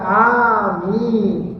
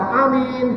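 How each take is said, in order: First: Both vowels in the word are held long. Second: One vowel in the word is said short. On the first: The speaker calls it right. "Yang benar dua-duanya panjang" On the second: The speaker calls it wrong. "Bukan amin, bukan ya"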